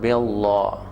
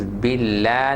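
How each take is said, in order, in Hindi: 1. L की ध्वनि भारी और भरी हुई है। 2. L की ध्वनि पतली और हल्की है। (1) "not billah" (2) "Make sure this is billah ... Because this is sharp"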